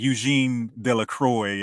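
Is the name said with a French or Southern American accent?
Southern American. The name is said with a Southern American pronunciation. "if you're from the South, like I am"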